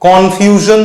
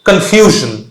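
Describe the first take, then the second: First: The stress is not on the middle syllable. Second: The stress is on the middle syllable. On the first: The speaker calls it wrong. "উচ্চারণটা কিরকম অন্যরকম শোনাচ্ছে দেখো" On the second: The speaker calls it right. "এফ ইউ বা এফ এর ওপরে আমি stress দিচ্ছি"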